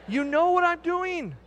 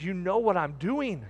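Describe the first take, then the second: First: High, drawn-out mock plea; hammed-up, high-pitched pleading; mock exasperation. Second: Said in the usual way. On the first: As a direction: stretch it out high in comic protest. Joking plea to wife, louder repeat.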